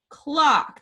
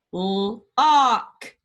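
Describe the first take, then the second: First: Said in the usual way. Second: Clock drawn out slowly; stretched word. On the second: Shown as a demonstration. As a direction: draw out clock. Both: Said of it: "The middle one says".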